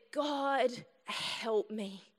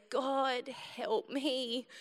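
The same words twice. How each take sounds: First: Faint, softer plea in pain; quiet plea. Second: Softer, faint repeated plea; quiet plea. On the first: In the car with stomach pain, a softer quiet plea. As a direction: murmur it as a desperate prayer. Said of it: "And I just said". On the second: Retelling the car ride, a softer weak plea. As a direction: breathe the plea out weakly. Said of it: "I just went". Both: Retold or imitated.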